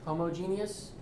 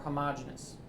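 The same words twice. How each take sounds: First: Every syllable of the word is fully pronounced. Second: The word is said with fewer, reduced syllables.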